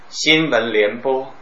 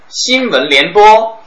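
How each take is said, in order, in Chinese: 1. 语气沉重，带着压抑。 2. 语气平常，不带感情。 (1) "那肯定是后面死人的" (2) "前面的就是正常的"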